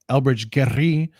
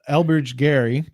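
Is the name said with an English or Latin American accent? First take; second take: Latin American; English. First: The name is said with a Latin American accent. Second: The name is said with a plain English accent.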